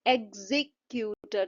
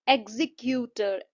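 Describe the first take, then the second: First: एग्जीक्यूटर slower, broken after a stressed जी; split stress on ZI. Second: एग्जीक्यूटर said slowly, weight on जी; stress on ZI. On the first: Teacher repeating to show stress, एग्जीक्यूटर split after stressed जी. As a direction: lean on जी, pause, then finish एग्जीक्यूटर. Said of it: "उस पे stress mark होगा". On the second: Teacher introducing the word, एग्जीक्यूटर slow with stress on जी. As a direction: sound out एग्जीक्यूटर carefully, stressing जी. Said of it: "जी का जो sound है". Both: Shown as a demonstration.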